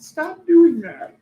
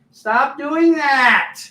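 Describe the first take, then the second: First: Much higher, louder, very slow mock yell. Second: Much higher, louder, very slow command; mock stern yell. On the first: Guide yelling at the Capricorns, slow, high mock yell. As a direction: shout it slowly like a scolding guide. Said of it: "He yelled". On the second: Angels scolding the sleeper, slow, high mock yell. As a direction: bark it slowly like a scolding angel.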